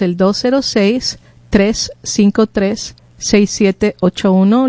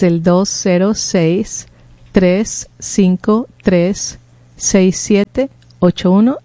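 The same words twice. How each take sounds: First: The number is said at normal speed. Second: The number is said more slowly.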